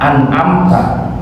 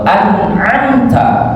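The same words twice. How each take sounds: First: The ain and nun sounds are unclear. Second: The ain and nun sounds are clear. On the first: The speaker calls it wrong. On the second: The speaker calls it right.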